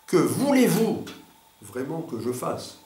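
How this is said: The emphasis falls on the word vraiment. The focus is on what is truly wanted. "sur vraiment"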